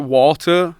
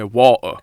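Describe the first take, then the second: First: The middle T is clearly pronounced. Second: The middle T is dropped. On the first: Said this way so Americans understand. "but I pronounce the T" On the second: This is how people from Bradford say it. "you don't even say the T"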